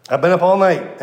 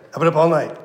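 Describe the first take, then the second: First: I've been up ALL night, ALL pushed louder; emphasis added. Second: Said in the usual way. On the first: Retold or imitated. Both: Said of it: "emphasis added".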